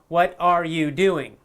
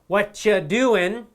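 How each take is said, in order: First: Each word is said separately and in full. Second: The first words are blended into one reduced word.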